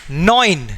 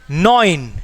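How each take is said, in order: No difference in how they are said.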